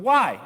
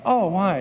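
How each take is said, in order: First: Sharp, high, curt question; blunt why. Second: Caring pastor tone. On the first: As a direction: snap out a bare why, no warmth. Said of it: "I didn't say it like that". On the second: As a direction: ask it with pastoral sympathy. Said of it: "you gotta talk like that as a pastor". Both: Shown as a demonstration.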